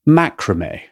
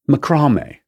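First: The stress is on the first syllable. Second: The stress is on the second syllable. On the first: "He places the emphasis on the first syllable" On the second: "place the emphasis on the second syllable"

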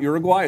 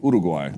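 First: The name is said with an English pronunciation. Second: The name is said with a Spanish pronunciation. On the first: The speaker calls it wrong. "it's actually not Uruguay" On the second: The speaker calls it right. "It's actually Uruguay. Right. That's how you say it"

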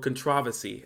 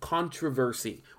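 First: The word is said the British way. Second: The word is said the non-British way.

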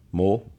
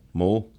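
No difference in how they are said.

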